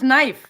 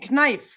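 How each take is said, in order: First: The initial K sound is silent. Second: The initial K sound is pronounced. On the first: The speaker calls it wrong. "same with knife" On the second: The speaker calls it right. "It should be knife"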